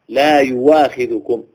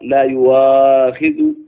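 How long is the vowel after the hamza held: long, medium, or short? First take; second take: short; medium. First: The vowel after the hamza is held short. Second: The vowel after the hamza is held medium-long. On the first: The speaker calls it right. "لا يجري فيها إلا القصر" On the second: The speaker calls it wrong. "ولا يجوز التوسط"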